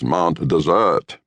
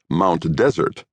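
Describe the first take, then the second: First: The name is said in the local way. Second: The name is said the way it looks. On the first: "but the pronunciation is Mount Desert" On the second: "one spells it Mount Desert"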